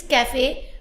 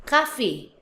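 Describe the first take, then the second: First: CAFE as English "KA-fay", rising at the end; English pronunciation. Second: CAFE as French "ka-FAY", open a, falling; French pronunciation. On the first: Teacher contrasting English with French, English pronunciation. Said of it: "in English is cafe". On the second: Teacher contrasting French with English, French pronunciation. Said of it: "but in French". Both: Shown as a demonstration.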